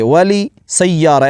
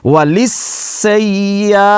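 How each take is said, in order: First: The l ends with a vowel, separate from s. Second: The l strikes straight into a doubled s. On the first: The speaker calls it wrong. "वली सय्यारा ऐसे नहीं पढ़ेंगे" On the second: The speaker calls it right. "लाम को सीन पर ऐसे मारेंगे"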